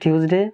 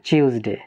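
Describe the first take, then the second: First: It is said with an American accent. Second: It is said with a British accent. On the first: "আমেরিকানরা বলে" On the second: "ব্রিটিশরা বলে"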